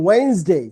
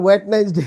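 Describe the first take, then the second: First: Wednesday as "WAINS-day", two syllables, no t; correct Wednesday pronunciation. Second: Wet nice day, three chunks with a hard t; common Wednesday mispronunciation. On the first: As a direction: model Wednesday smoothly with a silent first d. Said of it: "ওয়েন্স হচ্ছে জোরে দিতে হবে". (Wednesday, "ওয়েন্স-ডে" দুই ভাগে, ট ছাড়া) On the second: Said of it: "Most of the wet nice day বলবেন". (Wednesday-র ভুল উচ্চারণ, "ওয়েট-নাইস-ডে" তিন ভাগে) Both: Shown as a demonstration.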